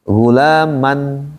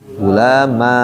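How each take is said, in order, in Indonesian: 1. Kata ini berakhir dengan suku kata '-an' yang pendek. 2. Kata ini berakhir dengan vokal 'a' yang dipanjangkan.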